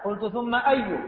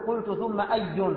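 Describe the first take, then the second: First: The last word ends without an added n sound. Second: The last word ends with an added n sound. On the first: The speaker calls it right. "الصواب في لفظة أو في كلمة أي عدم التنوين" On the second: The speaker calls it wrong. "لا تنون، ما تقول قلت ثم أي"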